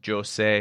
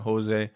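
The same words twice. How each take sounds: First: The name is said with Portuguese pronunciation. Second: The name is said with Spanish pronunciation. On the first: The speaker calls it right. "he's Portuguese, so it's Jose" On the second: The speaker calls it wrong. "That's Spanish"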